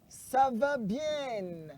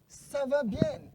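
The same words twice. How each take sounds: First: It is said at a slower pace. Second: It is said at a fast pace.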